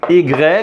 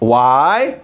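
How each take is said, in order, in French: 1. Le nom de la lettre se prononce à la française. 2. Le nom de la lettre se prononce à l'anglaise.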